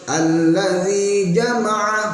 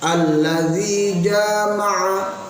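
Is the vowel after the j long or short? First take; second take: short; long. First: The vowel after the j is kept short. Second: The vowel after the j is drawn out long. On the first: It means to gather. The speaker calls it right. "Jimnya pendek" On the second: It means to have intercourse. The speaker calls it wrong. "jimnya dibaca panjang"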